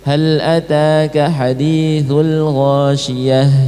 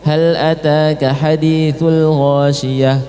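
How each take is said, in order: First: The letter sound is drawn out and flowing. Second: The letter sound is cut short without flowing. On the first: The speaker calls it right. "Contohnya seperti ini" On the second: The speaker calls it wrong. "Cukup ... kayak itu aja, padahal dialirkan di situ"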